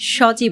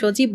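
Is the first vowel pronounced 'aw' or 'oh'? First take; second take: aw; oh. First: The first vowel sounds like open 'aw'. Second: The first vowel sounds like closed 'oh'. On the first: The speaker calls it right. "স কিন্তু অবিকৃত থাকছে" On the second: The speaker calls it wrong. "কেউ যদি আপনাদের সজীব বলে"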